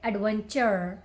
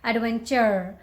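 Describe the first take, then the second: First: The final r sound is clearly pronounced. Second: The same.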